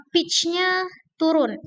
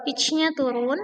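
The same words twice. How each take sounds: First: "pitch-nya turun" said slower, starting high and falling at the end; falling tune demo. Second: Said in the usual way. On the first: Shown as a demonstration. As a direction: let "pitch-nya turun" drop down clearly, slowly. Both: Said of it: "Yang pertama ada falling".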